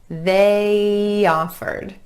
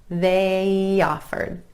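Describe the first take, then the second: No difference in how they are said.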